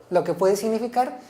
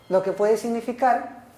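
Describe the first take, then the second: No difference in how they are said.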